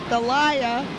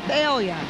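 First: The name is said the standard, textbook way. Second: The name is said the local New Orleans way.

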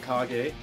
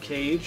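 First: The name is pronounced like a Japanese word. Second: The name is pronounced like an English word. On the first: The name is treated as Japanese. "I call it Kage, because it looks, like Japanese" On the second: This is how some other people say it. "Some people call it The Legend of Cage"

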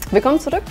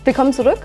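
First: The voice falls at the end like a statement. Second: The voice rises at the end like a question. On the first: It sounds like a greeting statement. The speaker calls it right. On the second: It sounds like a question. The speaker calls it wrong.

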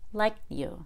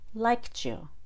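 First: The T is held without being released. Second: The T and Y blend into a CH sound. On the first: "then the held T" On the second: "First, I'll do the CH"

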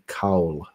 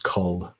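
First: The vowel is a full 'ow' sound, said slowly. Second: The vowel is a short 'uh' sound, said quickly. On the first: This is the careful, unhurried pronunciation. "If you were to take your time to pronounce it, it would be Cowl" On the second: This is the quick, casual pronunciation. "But if you say it fast, it's Cull"

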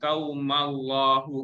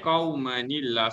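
First: The words run together with no 'ni' sound. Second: An added 'ni' sound links the two words. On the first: The speaker calls it wrong. "kalau kita baca straight, dia akan jadi qaumal kan" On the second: The speaker calls it right. "nun itu diberi baris bawah. So jadilah dia kau mani"

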